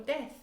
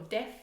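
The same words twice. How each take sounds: First: Tongue out for the th of "death"; th sound. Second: "deaf" ending in a clear f; f sound. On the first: Teacher contrasts th in "death" with f. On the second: Teacher contrasts f in "deaf" with th. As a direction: bite the lip for the f in "deaf". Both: Shown as a demonstration. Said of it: "One is a dead person".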